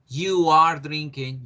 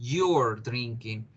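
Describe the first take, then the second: First: You and are are said as separate words. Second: You and are are joined into one syllable.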